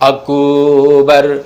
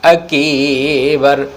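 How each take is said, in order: First: A long u vowel follows the k sound. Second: A long i vowel follows the k sound. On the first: "इसको इतना लंबा करते हैं" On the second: "इसको इतना लंबा करते हैं"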